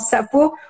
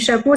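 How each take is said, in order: First: The word begins with an 's' sound. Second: The word begins with a 'sh' sound. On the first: This is how a child with an articulation disorder says it. The speaker calls it wrong. "l'enfant, il va dire un sapot" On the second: This is the expected pronunciation. The speaker calls it right. "au lieu du chapeau"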